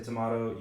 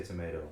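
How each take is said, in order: First: "tomato" said as tuh-MAH-toh. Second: "tomato" said as tuh-MAY-toh. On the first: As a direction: say "tomato" with a broad ah in the middle. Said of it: "I say tomato". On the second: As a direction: say "tomato" with a long ay in the middle. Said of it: "you say tomato". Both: Shown as a demonstration.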